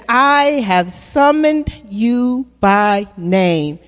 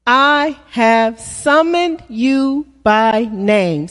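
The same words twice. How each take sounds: First: Slow, lower, each word spaced; slow, weighty scripture reading. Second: Even slower, lower, word by word; slow echo of the verse; slow repeat. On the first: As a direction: read it slowly so they can follow. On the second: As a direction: let it sink in slowly. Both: Shown as a demonstration. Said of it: "Say that with me".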